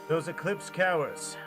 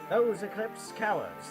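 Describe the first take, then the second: First: It is spoken in the speaker's ordinary accent. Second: It is spoken in an attempted Irish accent.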